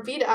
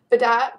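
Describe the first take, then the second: First: "Vida" without a final t; alternative pronunciation. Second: "Vidat" with the final t; name pronunciation. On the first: Trying another reading of a viewer's name, "Vida". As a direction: offer "Vida" as the other reading. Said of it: "or Vida, I say it Vidat". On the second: Reading out a viewer's name, pronounced "Vidat". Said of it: "I say it Vidat". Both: Shown as a demonstration.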